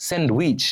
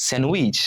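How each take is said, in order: First: স্যান্ডউইচ with the d sounded, "send-wich"; common mispronunciation. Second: স্যান্ডউইচ with silent d, "sen-wich"; correct pronunciation. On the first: Teacher showing what we usually say, mispronounced. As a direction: say স্যান্ডউইচ with a full d. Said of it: "আমরা কি করে থাকি". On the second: Teacher giving learners the right form, correctly pronounced. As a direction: drop the d in স্যান্ডউইচ. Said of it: "এর সঠিক উচ্চারণ হবে". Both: Shown as a demonstration.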